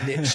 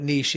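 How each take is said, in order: First: It is said the American way. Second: It is said the non-American way. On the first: This is how Americans say it. "the Americans call it" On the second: This is how the speaker's own community says it. "But we call it niche"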